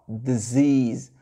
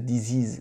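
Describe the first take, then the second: First: The first syllable has a weak 'duh' vowel. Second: The first syllable has a full 'dee' vowel. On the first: The speaker calls it right. "Le D I, ça fait de, de. On met le schwa sound" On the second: The speaker calls it wrong. "j'entends les francophones dire disease"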